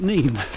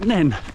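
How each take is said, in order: First: The vowel is a long 'ee' sound. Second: The vowel is a short 'e' sound. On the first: This is how people in the east say it. "In the east, like Peterborough, they call it Neen" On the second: This is how people in the west say it. "In the west, Northampton, they call it Nen"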